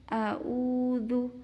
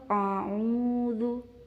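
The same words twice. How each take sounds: First: Both throat consonants are plain glottal stops. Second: Both throat consonants are the deeper ain sound. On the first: "dua-duanya dibaca hamzah" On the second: "dua-duanya dibaca ain"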